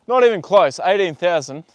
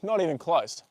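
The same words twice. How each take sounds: First: Louder, punchy and indignant; emphatic refusal. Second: Said in the usual way. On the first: Real, not acted. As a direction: shut the offer down hard. Rejecting lowball offers on horse.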